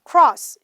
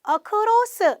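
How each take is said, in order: First: The weak first syllable is almost dropped. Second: The first syllable is clearly pronounced. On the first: "cross 이렇게 들립니다" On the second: "across 이렇게 안 들린다"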